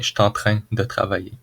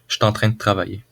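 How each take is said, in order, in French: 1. Certains mots sont raccourcis de façon détendue. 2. Beaucoup de mots sont fortement raccourcis et liés entre eux. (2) "plus naturellement, je dirais"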